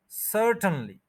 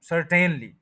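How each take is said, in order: First: सर्टेनली as SUR-tn-lee, middle vowel dropped; corrected pronunciation. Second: सर्टेनली as sur-TEN-lee, middle vowel voiced; wrong pronunciation. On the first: Teacher fixing the mistake, सर्टेनली with reduced 'tn'. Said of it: "उसको नहीं बोलेंगे". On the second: Teacher repeating the usual mistake, सर्टेनली with full 'ten'. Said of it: "तो वो भी गलत हो गया". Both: Shown as a demonstration.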